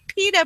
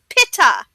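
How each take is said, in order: First: The word is said in an American accent. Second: The word is said in a British accent. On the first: "English people do not say pita bread" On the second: "They say pita"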